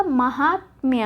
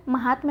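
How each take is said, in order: First: महात्म्य slowly, ending in "mya"; slow महात्म्य with y sounded; correct form shown. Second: महात्म ending in "tma"; महात्म as ma-hāt-ma; wrong form shown. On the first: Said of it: "क्या होगा?". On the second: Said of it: "ना होके क्या होगा". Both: Shown as a demonstration.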